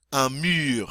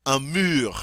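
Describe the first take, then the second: First: "Un mur" again with a rounded u; French u repeated. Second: "Un mur" with a rounded French u. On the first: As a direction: repeat "Un mur" with the lips pushed forward. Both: Shown as a demonstration. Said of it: "remember it's that U".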